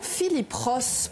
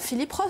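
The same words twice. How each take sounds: First: The name is pronounced with French sounds. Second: The name is pronounced with English sounds. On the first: The speaker calls it wrong. "prononciation à la française pour la quasi-totalité des médias" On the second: The speaker calls it right. "alors qu'on devrait dire"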